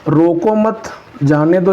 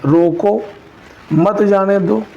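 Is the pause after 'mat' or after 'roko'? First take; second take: after mat; after roko. First: There is a pause right after 'mat'. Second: There is a pause right after 'roko'. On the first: The person should be allowed to go. "इसका मतलब है कि आने के लिए कहा जा रहा है।" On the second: The person should be stopped from going. "इस सेंस का निकल रहा है कि मतलब रोक लीजिए।"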